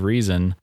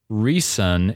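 First: The middle consonant is a buzzing Z. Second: The middle consonant is a hissing S. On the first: "instead of a Z sound" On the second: "as a S"

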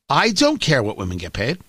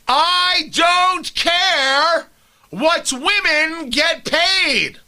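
First: It is said at normal volume. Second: It is screamed loudly.

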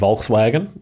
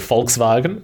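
First: The name is pronounced in an English way. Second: The name is pronounced in a German way. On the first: This is the usual everyday pronunciation. "rather than Volkswagen" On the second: This sounds pretentious in everyday talk. "I can't help but say Volkswagen"

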